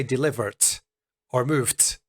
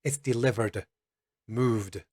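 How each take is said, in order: First: Delivered and moved ending in a wrong t; mock wrong ending, delivert and movet; wrong voiceless t. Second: The correct version, d buzzing at the end; correct voiced d. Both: Shown as a demonstration. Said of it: "we don't say".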